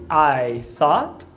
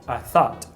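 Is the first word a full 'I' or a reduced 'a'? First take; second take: full; reduced. First: The first word is a full 'I' diphthong. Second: The first word is reduced to a plain 'a'. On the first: "em vez de I thought" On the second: "é bem comum ele falar somente a ao invés de I"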